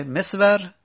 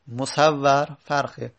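First: مصور said as mesvar, raised and louder. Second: مصور said slowly as musawwar, doubled w. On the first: Teacher contrasting a look-alike pair, first reading. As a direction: give مصور as mesvar with a quick s-v. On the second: Teacher contrasting a look-alike pair, second reading. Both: Shown as a demonstration.

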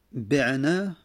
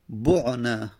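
First: بعنا said slowly as "bi'nā" with i on the b; بعنا with kasra, "bi'-nā", drawn out; active voice form. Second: بعنا said slowly as "bu'nā" with u on the b; بعنا with a rounded first vowel, "bu'-nā", drawn out; passive voice form. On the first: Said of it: "پس نزد ابن مالک". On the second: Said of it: "بعنا مجهوله". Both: Shown as a demonstration.

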